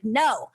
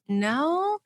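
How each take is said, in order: First: It is a firm statement, falling at the end. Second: It sounds like a question, rising at the end.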